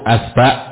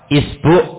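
First: Both vowels are a. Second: The first vowel is i, the second u.

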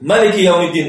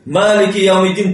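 First: The first vowel of Maliki is kept short. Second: The first vowel of Maliki is drawn out long.

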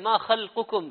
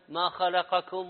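First: The L sound carries no vowel after it. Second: The L sound is followed by an 'a' vowel. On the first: The phrase means your creation. The speaker calls it right. "اللام ساكنة" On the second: The phrase is misread as a verb meaning he created you. The speaker calls it wrong. "شال السكون حط فتحة"

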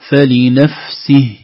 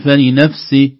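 First: The final h has clear breath. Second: The final h is faint and weak. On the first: The speaker calls it right. "نظهر مجرى النفس فيه" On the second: The speaker calls it wrong. "هكذا تخرج الهاء ضعيفة"

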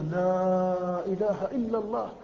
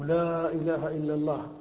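First: The vowels are stretched much longer. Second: The vowels are stretched only a little.

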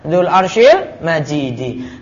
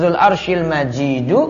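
First: The last word ends with an i vowel. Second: The last word ends with a u vowel. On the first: The throne is what is glorious and vast. "Boleh dibaca Zul Arshil Majidi" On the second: God Himself is glorious and majestic. "Boleh dibaca Zul Arshil Majidu"

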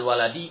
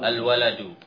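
First: The word ends with the vowel i. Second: The word ends with the vowel u. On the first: The noun is in the genitive case. The speaker calls it wrong. "Dibaca al-waladi maka tidak dikatakan mubtada dan khobar" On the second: The noun is in the nominative case. The speaker calls it right. "Mubtada'nya adalah yang mana? Al-waladu"

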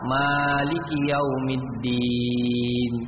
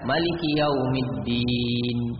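First: The vowel after the m is held long. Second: The vowel after the m is kept short.

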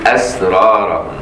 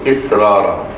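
First: The word begins with an a vowel. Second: The word begins with an i vowel. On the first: What they kept concealed. "وباقي القراء يقول أسرارهم" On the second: What they resolved on. "حفص والأصحاب يقول إسرارهم"

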